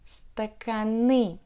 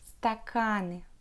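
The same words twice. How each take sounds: First: The stress falls on the last syllable. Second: The stress falls before the last syllable. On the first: This is a regional pronunciation. The speaker calls it wrong. "With the stress on the last syllable, but it's not right" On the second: This is the standard pronunciation. The speaker calls it right. "You should pronounce стаканы"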